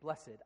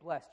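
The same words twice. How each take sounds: First: The word is said in a preacher's style. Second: The word is said in an everyday way. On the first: "you say blessed. I don't know why. It's a weird church thing" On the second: "you don't say blessed"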